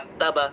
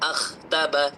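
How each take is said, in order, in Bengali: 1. এই ব্যঞ্জনটি একটি সাধারণ কঠিন 'k' ধ্বনি। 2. এই ব্যঞ্জনটি একটি গলার ঘষা 'kh' ধ্বনি।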